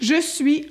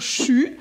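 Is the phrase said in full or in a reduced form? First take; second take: full; reduced. First: The phrase is said fully as two words. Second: The phrase is squeezed into one short syllable.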